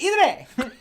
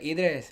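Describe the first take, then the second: First: The name is said in an angry voice. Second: The name is said in a calm voice. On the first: "But if they're mad" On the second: "If they're pretty calm"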